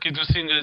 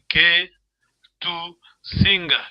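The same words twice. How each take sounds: First: The words run together without pauses. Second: The words are separated by pauses. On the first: The speaker calls it right. "Just one flows" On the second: The speaker calls it wrong. "you don't pause. You don't you don't say K to singer. You don't read like this"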